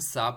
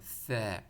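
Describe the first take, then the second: First: It begins with a hissing s sound. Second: It begins with a th sound, tongue between teeth. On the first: The speaker calls it wrong. "Urdu में हम सा पढ़ते हैं, सीन के साथ पढ़ लेते हैं" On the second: The speaker calls it right. "ज़बान बाहर निकाल के ऊपर वाले टीट के साथ टच करना है"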